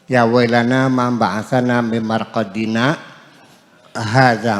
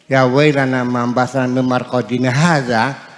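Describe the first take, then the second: First: There is a pause before hadza. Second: It runs straight on into hadza.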